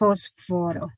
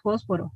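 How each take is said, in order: First: The f is made with lip and teeth. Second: The f is made with both lips. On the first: This is not how speakers usually say it. "no decimos fósforo ... esa F labiodental" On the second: This is how speakers usually say it. "ese es el alófono más común ... porque nosotros decimos fósforo"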